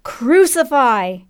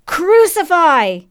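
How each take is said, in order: First: Slow, drawn-out cry, pitched up; long falling cry of condemnation; crowd roar. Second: High, drawn-out mob cry; slow, high roar of condemnation; louder crowd roar. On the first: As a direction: roar it back as a mob would. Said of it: "the crowd roared back". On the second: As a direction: belt it out, long and falling. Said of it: "It was louder this time". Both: A narrator's reading.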